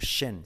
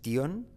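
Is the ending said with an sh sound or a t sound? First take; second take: sh sound; t sound. First: The ending is said with an sh sound. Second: The ending is said with a t sound. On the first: The speaker calls it right. "sino shen" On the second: The speaker calls it wrong. "No es tion"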